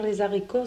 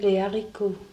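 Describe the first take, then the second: First: A z sound links les to haricots. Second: No z sound links les to haricots. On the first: The speaker calls it wrong. "de dire les haricots, c'est pas bon" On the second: The speaker calls it right. "On dit les haricots, on appelle le H aspiré"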